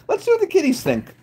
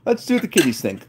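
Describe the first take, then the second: First: High, soft little voice; playful high-pitched cooing; cutesy kitty talk. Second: Said in the usual way. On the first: Pretend. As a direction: pitch it up as if cooing about pets. Cutesy take, then repeated normally.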